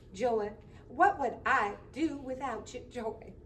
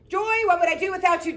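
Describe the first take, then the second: First: It is said in a Southern accent. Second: It is said in his own voice.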